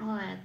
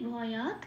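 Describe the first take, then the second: First: The final t is cut off with no vowel. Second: The final t is said fully with a vowel. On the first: "তয় হসন্ত রূপে" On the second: "ভটা পূর্ণরূপে উচ্চারিত করছি"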